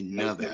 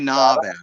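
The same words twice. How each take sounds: First: The middle vowel is a short 'a' sound. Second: The middle vowel is an open 'ah' sound. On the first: The speaker calls it right. "Say Nevada" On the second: The speaker calls it wrong. "Don't say Nevada. ... if you put an A in there, a duh"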